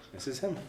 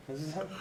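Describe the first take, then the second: No difference in how they are said.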